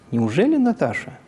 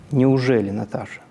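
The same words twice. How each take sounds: First: It is said with intonation pattern 3, sounding joyful. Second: It is said with intonation pattern 2, sounding disbelieving. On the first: It is hoped that it really is this person. "с помощью ИК-3, то это уже зазвучит как радостное ожидание" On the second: It cannot really be this person. "Если это будет ИК-2, тогда перед нами невозможность реальности информации"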